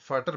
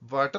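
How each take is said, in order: First: The word begins with an F sound. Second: The word begins with a V sound. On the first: The speaker calls it right. "इसको फाटर बोलना" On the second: The speaker calls it wrong. "इसको वाटर नहीं बोलना"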